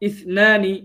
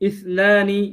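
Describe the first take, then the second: Both takes have the same delivery.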